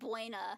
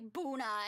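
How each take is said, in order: First: The first syllable glides as 'bweh'. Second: The first syllable is a plain 'boo' sound. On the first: The speaker calls it wrong. "and not Buena" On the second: The speaker calls it right. "you pronounce it like Boona"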